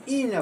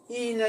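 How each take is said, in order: First: ꯏꯅ starting high and falling. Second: ꯏꯅ held high and drawn out; rising tone. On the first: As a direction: drop the pitch through ꯏꯅ. (ꯏꯅ ꯐꯣꯂꯤꯡ ꯇꯣꯟꯗ) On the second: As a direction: keep ꯏꯅ up, slow, on the rising tone. (ꯏꯅ rising ꯇꯣꯟꯗ) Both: Shown as a demonstration. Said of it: "rising tone ꯑꯃꯁꯨꯡ ꯐꯣꯂꯤꯡ tone".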